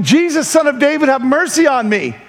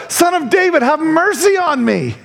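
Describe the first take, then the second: First: Higher-pitched retold cry for mercy; mild mock shout. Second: More insistent mock shout. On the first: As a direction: plead as if calling out, without full volume. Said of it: "He began shouting". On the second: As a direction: imitate a desperate call, pitched well up. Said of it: "he only shouted louder".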